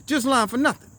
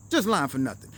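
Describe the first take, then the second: First: Just lying for nothing with a rising tune; tossed off high, lifting at the end; a shrugged-off excuse; rising mock excuse. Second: Just lying for nothing, dropping low and settling down; lower, closing it off with a fall; mumbled afterthought; falling mock excuse. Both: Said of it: "And he was like".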